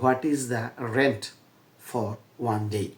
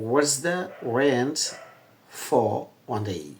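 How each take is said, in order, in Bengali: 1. 'What is' পূর্ণ দুটি শব্দ হিসেবে বলা হয়। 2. 'What is' সংকুচিত হয়ে 'what's' হয়। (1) "আমি আসলে উচ্চারণটা বাংলাদেশের মতো আগে করি" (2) "এখন বিদেশিরা এই বাক্যটাকে কীভাবে বলবে?"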